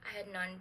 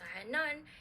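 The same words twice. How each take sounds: First: The final consonant of had stays distinct. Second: The final consonant of had blends into the next.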